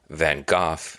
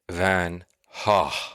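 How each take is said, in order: First: The name is said the British way. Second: The name is said the Dutch way. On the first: "is more of a U K thing" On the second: "the Dutch pronunciation is the correct pronunciation"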